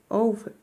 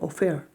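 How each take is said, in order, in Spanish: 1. El acento está en la primera sílaba. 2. El acento está en la segunda sílaba. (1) "está acá la entonación de voz" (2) "no está al final, no digo offer"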